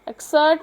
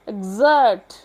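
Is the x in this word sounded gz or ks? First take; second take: ks; gz. First: The x is pronounced as ks. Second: The x is pronounced as gz. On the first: The speaker calls it wrong. "इसको एक्सर्ट नहीं पढ़ेंगे" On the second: The speaker calls it right. "लिहाजा हम ग्ज की sound दे रहे हैं"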